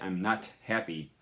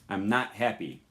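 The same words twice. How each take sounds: First: The t at the end of not is released. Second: The t at the end of not is dropped. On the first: The speaker calls it wrong. "We don't say I'm not happy unless you're a robot" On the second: The speaker calls it right. "this sound is not pronounced"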